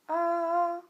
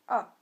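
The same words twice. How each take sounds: First: The pitch stays high and level. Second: The pitch falls sharply from high to low.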